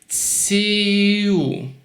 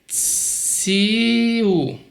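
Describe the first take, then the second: The two takes are said the same way.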